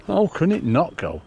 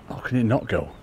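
First: Higher and slower, stressing HOW in disbelief; exasperated disbelief. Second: Said in the usual way. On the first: Real, not acted. Angler baffled that the fish won't take, exasperated. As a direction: drag out "How" as if the fish defies logic.

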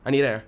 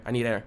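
First: "I need air" pushed out louder and urgent; louder panicked repeat. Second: Said in the usual way. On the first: Real, not acted.

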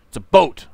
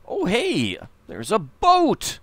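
First: Louder, emphatic repeat of the boat. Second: Higher, slow, delighted announcement of the boat; excited discovery. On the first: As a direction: say it again, louder and firmer. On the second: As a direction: point it out with glee. Spots a boat, says it twice. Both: Real, not acted.

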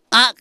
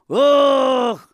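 First: Said in the usual way. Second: Long, loud, high-pitched wail of "ach"; one sustained shouted moan; drawn-out "ach". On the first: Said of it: "Δεν μου λες, τα παπούτσα σε βαράνε". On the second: Acted. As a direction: stretch the "ach" out from the soul. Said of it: "Πες το, βρε, τραβηχτό μέσα από την ψυχή σου".

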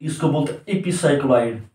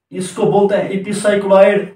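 First: Said in the usual way. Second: Teacher repeats the term and hits epicycloid; stress on epicycloid. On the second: Shown as a demonstration. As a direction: lean on the word epicycloid to drive it home. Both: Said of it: "इसको क्या बोलते हैं?".

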